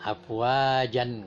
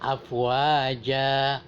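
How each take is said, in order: First: The word ends with a final n sound. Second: The word ends on a long open vowel. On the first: The speaker calls it wrong. "Kadang-kadang mahasiswa ada juga yang salah" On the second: The speaker calls it right. "Tetapi di sini afwaja"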